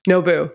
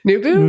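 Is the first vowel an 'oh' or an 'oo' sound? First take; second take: oh; oo. First: The first vowel sounds like 'oh'. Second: The first vowel sounds like 'oo'. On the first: The speaker calls it right. "Maybe it's Nobu" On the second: The speaker calls it wrong. "Maybe I don't say that right"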